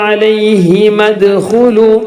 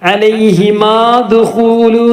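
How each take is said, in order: First: The final vowel is short and runs into dkhulu. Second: The final vowel of alayhima is drawn out long. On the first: The speaker calls it right. "നീട്ടാനുള്ളത് ഒഴിവാകും" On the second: The speaker calls it wrong. "എന്ന് വായിക്കൂല"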